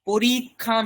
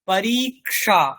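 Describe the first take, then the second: First: The middle consonant is a plain aspirated 'kh'. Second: The middle consonant is a 'k' followed by 'sh'. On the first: The speaker calls it wrong. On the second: The speaker calls it right.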